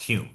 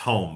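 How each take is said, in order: First: The vowel sounds like the one in 'fume'. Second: The vowel sounds like the one in 'comb'. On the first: The speaker calls it right. "it's pronounced Hume because he was from Scotland" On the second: The speaker calls it wrong. "it looks like it's home"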